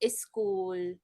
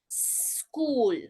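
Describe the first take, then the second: First: An extra vowel sound comes before the s. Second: The word starts directly with the s sound. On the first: The speaker calls it wrong. "That little eh sound" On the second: The speaker calls it right. "Just s-"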